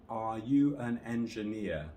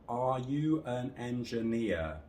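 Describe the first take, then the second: First: Every word has equal length and equal stress. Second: Every word has equal length and equal stress.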